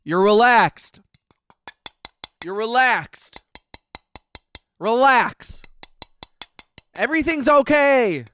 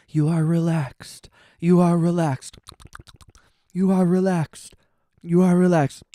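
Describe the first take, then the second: First: Obnoxious ASMR. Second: Hypnotic "You are relaxed", a playful parody; mock ASMR voice. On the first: Pretend. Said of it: "really obnoxious A S M R". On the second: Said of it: "it's A S M R".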